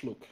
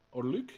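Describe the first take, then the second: First: "Luke" with a short vowel, as in look; "Luke" said short, rhyming with book; name pronunciation. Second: "Luke" with a long oo vowel; "Luke" rhyming with duke, rising as a question; alternative pronunciation. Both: Shown as a demonstration. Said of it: "I think it's Luke".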